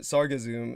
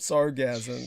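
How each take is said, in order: First: It is said in three syllables, ending in -assum. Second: It is said in two syllables, rhyming with orgasm. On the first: The speaker calls it right. "it's like Sargasso, like the Sargasso Sea" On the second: The speaker calls it wrong. "you pronounced it like it was an orgasm. Sargasm, you, you said"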